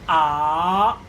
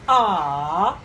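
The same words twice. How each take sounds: First: The pitch rises from mid to high. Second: The pitch dips low, then rises. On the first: "The second one is raising" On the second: "falling and rising"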